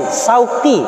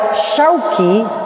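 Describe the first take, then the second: First: It starts with plain s and has a deep q. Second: It starts with sh and has a plain k. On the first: It means thorns. "benar qaf tapi depannya sin" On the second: It means market. "benar shin, tapi di belakangnya kaf"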